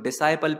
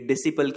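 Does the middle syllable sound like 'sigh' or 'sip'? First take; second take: sigh; sip. First: The middle syllable sounds like 'sigh'. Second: The middle syllable has a short 'i' sound. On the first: The speaker calls it right. "आप इसको डिसाइपल पढ़ें तो ज्यादा better लगेगा" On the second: The speaker calls it wrong. "ये डिसिपल की जगह"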